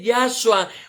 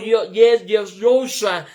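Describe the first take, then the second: First: The first vowel sounds like 'ah'. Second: The first vowel sounds like 'o'. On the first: "no se dice Yahshua" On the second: "no se dice ... Yoshua"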